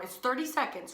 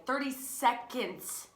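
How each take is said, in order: First: Said in the usual way. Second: "Thirty seconds" slow and higher, each word set apart; emphatic repeat. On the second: Shown as a demonstration. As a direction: stretch out "Thirty seconds" to drive it home.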